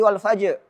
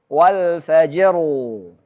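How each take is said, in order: First: The final r sound is dropped. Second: The final r sound is clearly kept. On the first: The speaker calls it wrong. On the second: The speaker calls it right.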